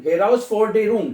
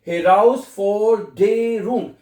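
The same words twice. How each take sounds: First: Said in the usual way. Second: "Heraus Forderung" slowly as he-raus, for, de, rung; teacher sounding "Heraus Forderung" part by part, missing nothing; every letter sounded. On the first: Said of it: "फिर उसको इकट्ठा कर दें". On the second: Shown as a demonstration. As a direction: draw out each syllable of "Heraus Forderung". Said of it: "एक एक alphabet पढ़ा जाता है".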